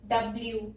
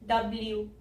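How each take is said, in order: First: A y glide comes before the final oo. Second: The same.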